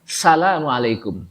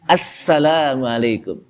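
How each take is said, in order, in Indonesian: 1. Diucapkan dengan cepat, bunyinya saling tersambung. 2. Diucapkan dengan hati-hati, bunyi s-nya digandakan. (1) "dia terburu-buru kali ya lidahnya" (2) "Yang betul apa?"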